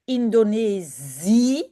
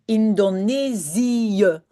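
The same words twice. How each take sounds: First: The i and e merge into one long vowel. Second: The i and e are said as separate syllables. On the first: The speaker calls it wrong. "Do not say Indonesië along E" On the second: The speaker calls it right. "say the I and say the E separately"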